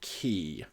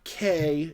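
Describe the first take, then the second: First: The word is said like the word key. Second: The word is said like the letter K. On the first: The speaker calls it right. "the technically correct pronunciation from what I've seen, is key" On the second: The speaker calls it wrong. "It is not K"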